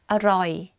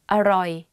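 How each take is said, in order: No difference in how they are said.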